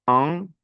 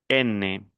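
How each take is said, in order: First: "an" higher, as a nasal vowel. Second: "N" as a clear "ène", falling; non-nasal ending. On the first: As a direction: say "an" through the nose. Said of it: "Lo mismo que". ("an" nasal, sin pronunciar la n) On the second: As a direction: fully sound the consonant in "N". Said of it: "el segundo no es nasal". ("N" como ène, sin nasalizar) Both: Shown as a demonstration.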